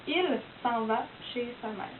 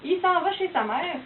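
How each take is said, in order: First: "il s'en va chez sa mère" with a full "il", l sounded; careful standard pronunciation; standard French. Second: "il s'en va chez sa mère" with "il" clipped to "i"; light Québécois accent. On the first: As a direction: spell out each word plainly. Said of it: "ben c'est". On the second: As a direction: say it "i s'en va" like a local. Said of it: "un Québécois qui dit". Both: Shown as a demonstration.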